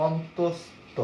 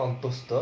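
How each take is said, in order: First: অন্তস্থ slowly, in separated syllables; teacher slowly sounding out অন্তস্থ; careful letter-name demo. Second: Said in the usual way. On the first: Shown as a demonstration. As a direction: stretch অন্তস্থ out as "ontos... tho". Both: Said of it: "দেখো অন্তস্থ আমরা বলি".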